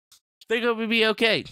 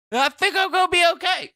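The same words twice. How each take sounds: First: Said in the usual way. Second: High reassurance. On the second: Pretend. High self-reassurance, then repeated.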